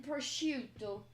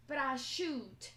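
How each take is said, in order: First: Said in the usual way. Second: "prosciutto" as "pra-SHOOT", final "o" dropped; Jersey Italian pronunciation. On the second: Shown as a demonstration. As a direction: say "prosciutto" Jersey-style, cut off after the "t". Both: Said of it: "Jersey Italian pronunciations".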